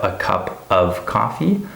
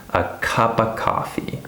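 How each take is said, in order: First: The word 'of' is said fully with its F. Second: The word 'of' is reduced to 'uh'. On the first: "Instead of a cup of coffee" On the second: "a famous one that a lot of people say"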